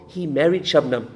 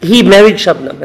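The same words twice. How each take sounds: First: Soft, low delivery of "he married Shabnam"; understated punchline. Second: Loud, punched "He" in "He married Shabnam"; stress on HE. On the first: Acted. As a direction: drop the punchline quietly and low. Punchline first given softly. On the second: Retold or imitated. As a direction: hit "He" hard to hammer the punchline home. Punchline repeated with force.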